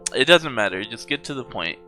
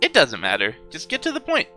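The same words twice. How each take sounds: First: It is said in Makoto's voice. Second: It is said in Monokuma's voice.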